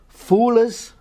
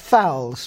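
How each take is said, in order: First: The vowel is 'oo', Scots-like. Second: The vowel is 'ow', modern RP.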